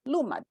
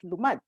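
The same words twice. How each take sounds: First: The stress is on the first syllable. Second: The stress is on the second syllable. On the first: "I put an accent, right, on the first syllable" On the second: "it doesn't belong the first, it belongs in the second"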